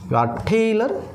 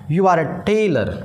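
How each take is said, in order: First: It is shortened to one syllable, 'you're'. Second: It is said as two separate words, 'you are'.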